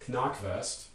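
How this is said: It is said with German sounds. "it's going to be something like Knackwurst"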